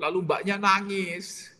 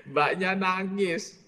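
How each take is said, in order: First: Amused. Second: Mbaknya nangis said slowly, nangis stretched and falling; slow emphasis. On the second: Preacher repeats that the maid cried, slow and stressed. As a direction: drag out nangis for effect. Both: Real, not acted.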